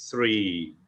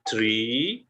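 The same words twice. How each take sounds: First: "three" with tongue on teeth, unvoiced TH, falling. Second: "Tree" with a clear T before the R, rising. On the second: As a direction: start "Tree" on a plain T. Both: Shown as a demonstration. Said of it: "Beda ya sama pohon".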